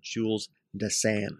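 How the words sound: The name is said with a European pronunciation. This is how Europeans say it. "and you're in Europe, you're going to call him"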